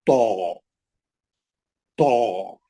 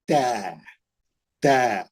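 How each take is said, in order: First: तो low, held on a rounded "aw" vowel; thick. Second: तै lower, held on a spread "ae" vowel; thin. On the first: Teacher shows the same mouth can go thick, rounded and low. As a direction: round the mouth and draw out a heavy तो. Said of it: "उसी मुंह से मोटा". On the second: Teacher shows the same mouth can go thin, spread vowel. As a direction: draw out तै with an unrounded mouth. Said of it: "उसी मुंह से पतला". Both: Shown as a demonstration.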